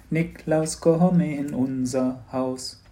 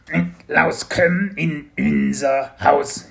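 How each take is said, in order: First: Slow, simple sung carol line; singing. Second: Slow, high, loud creature singing; creature singing wrong vowels. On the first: A narrator's reading. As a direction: sing it slowly to a little pupil. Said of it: "Sie sangen mit ihm". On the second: Acted. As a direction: sing "komm in unser" with fronted kömm-in-ünser vowels. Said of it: "was bei Spekulatius natürlich".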